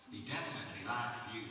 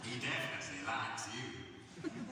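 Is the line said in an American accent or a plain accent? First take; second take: plain; American. First: It is said in the speaker's plain accent. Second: It is said in an American accent.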